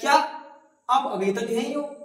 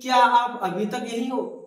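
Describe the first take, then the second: First: It is said with a sense of surprise. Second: It is said as a questioning inquiry. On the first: The speaker is astonished the person remains. The speaker calls it right. "इसे ऐसे बोलेंगे" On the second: The speaker is asking for information. The speaker calls it wrong. "इसे ऐसे नहीं बोलेंगे कि ... तो फिर वो पूछने के भाव में हो जाएगा"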